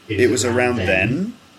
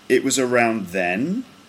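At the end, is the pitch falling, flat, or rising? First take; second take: rising; rising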